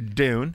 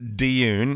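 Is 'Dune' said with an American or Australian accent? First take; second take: American; Australian. First: It is said with an American accent. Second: It is said with an Australian accent.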